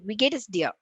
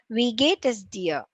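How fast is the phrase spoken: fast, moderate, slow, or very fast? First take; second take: very fast; moderate. First: The phrase is spoken very quickly. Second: The phrase is spoken at moderate speed. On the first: "Fourth speed" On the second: "And then the second speed"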